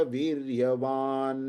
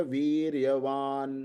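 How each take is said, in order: No difference in how they are said.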